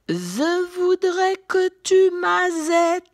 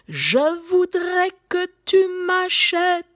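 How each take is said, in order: First: The ch sound is lisped as a z. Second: The ch sound is said normally.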